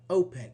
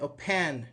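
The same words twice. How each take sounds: First: The stress is on the first syllable. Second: The stress is on the second syllable. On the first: The speaker calls it right. "the vowel here is unstressed" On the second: The speaker calls it wrong. "We don't say open"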